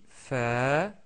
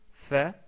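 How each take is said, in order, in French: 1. La voyelle est tenue longtemps. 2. La voyelle est tenue brièvement. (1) "avec la voyelle longue alif on dit fa" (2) "avec fatha on dit fa"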